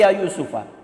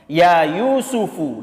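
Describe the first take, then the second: First: The name ends with a short 'a' vowel. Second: The name ends with a short 'u' vowel. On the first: The speaker calls it wrong. "tidak boleh" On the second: The speaker calls it right. "harus dibaca dhom, dhamma"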